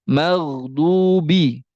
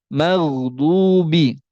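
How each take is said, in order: Both takes have the same delivery.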